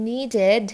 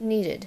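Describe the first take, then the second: First: নিডেড with a heavy, loud "DED"; full E in the last syllable of নিডেড; spelled ED ending. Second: "needed" with a light "did" ending; short I in the last syllable of "needed". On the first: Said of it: "ইডি". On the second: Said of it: "ইডির জায়গায় আইডি". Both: Shown as a demonstration.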